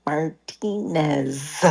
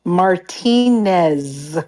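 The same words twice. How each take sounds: First: Martinez drawn out slowly with careful Spanish vowels. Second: Martinez slow, every syllable Spanish. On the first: Young [name] teaching people Martinez slowly in Spanish. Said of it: "really move my teeth in my mouth". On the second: Correcting a coworker, Martinez said slowly in Spanish. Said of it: "my last name is Martinez". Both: Shown as a demonstration.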